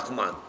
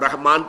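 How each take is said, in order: First: The middle consonant is a rasping kh. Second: The middle consonant is a soft breathy h.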